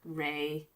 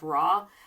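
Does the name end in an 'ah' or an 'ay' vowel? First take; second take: ay; ah. First: The name ends in an 'ay' vowel. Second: The name ends in an 'ah' vowel. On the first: Some people consider this the proper pronunciation. "some people who think that Ray is the proper pronunciation" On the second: This is the speaker's habitual pronunciation. "which I say just because that's kind of how I've always said it"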